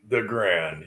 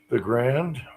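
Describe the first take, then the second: First: The voice falls at the end, like a statement. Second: The voice rises at the end, like a question. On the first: It is a confident statement. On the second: The speaker sounds unsure, as if asking.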